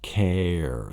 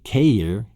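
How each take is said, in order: First: The vowel is a short 'eh' sound. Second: The vowel is a long A sound. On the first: The speaker calls it right. "gives it the K, eh, eh, eh, eh, eh sound" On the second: The speaker calls it wrong. "You don't say uh, K, care, care, like the long A sound"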